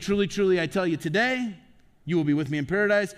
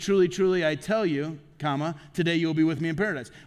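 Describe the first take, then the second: First: The pause comes after the word today. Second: The pause comes before the word today.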